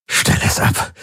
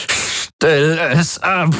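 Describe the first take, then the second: First: Breathless whispered begging; barely voiced, desperate plea. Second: Very high, slow wail; drawn-out anguished cry. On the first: Tormented man whispers at the singing in his head, begging. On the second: Tormented man's last anguished plea to the Helix, slow and high. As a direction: stretch it into an anguished howl. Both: A narrator's reading. Tortured man begs noise stop.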